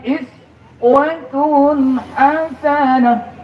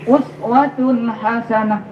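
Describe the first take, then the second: First: The first word begins with an 'i' vowel. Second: The first word begins with an 'u' vowel. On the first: The kasrah reading suggests a model for the small. "Ahli qiraah itu kadang-kadang" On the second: The dammah reading suggests a model for the great. "bisa dibaca us"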